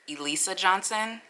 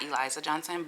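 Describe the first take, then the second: First: The first name has an s sound. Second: The first name has a z sound. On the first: The speaker calls it right. "I think it's Elisa Johnson" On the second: The speaker calls it wrong. "not Eliza Johnson"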